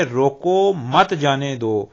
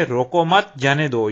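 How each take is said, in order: First: Slow, with a clear break after "روکو" then "مت جانے دو" as one run; pause after روکو. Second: "روکو مت" said together, then a break before "جانے دو"; pause after روکو مت. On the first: Teacher reading the example sentence to the class, slow, with a break after "روکو". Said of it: "روکو کے بعد جو علامت کاما کی لگائی گئی ہے". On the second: Teacher contrasting the second sentence for students, with a pause after "روکو مت". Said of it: "روکو مت" کے بعد سکتہ کی علامت". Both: Shown as a demonstration.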